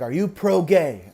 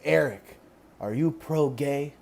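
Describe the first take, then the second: First: Put-on mom repeating it firmly, light Filipino accent; thick Filipino accent. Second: Put-on soft, slow mom with a light Filipino accent; thick Filipino accent. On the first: Mom repeating her question to her son, light Filipino accent. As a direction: ask it more pointedly, lightly Filipino-accented. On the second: Conservative mom questioning her son, slow light Filipino accent. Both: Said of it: "she has a really thick accent".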